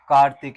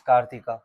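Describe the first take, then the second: First: The word ends on the consonant 'k'. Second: The word ends with an added 'a' vowel.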